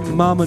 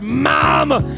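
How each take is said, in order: First: The voice is plain and ordinary. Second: The voice is low and gravelly. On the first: "I would never hear" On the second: "I would always hear"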